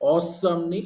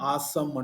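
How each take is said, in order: First: The first vowel sounds like 'aw'. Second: The first vowel sounds like 'aa'.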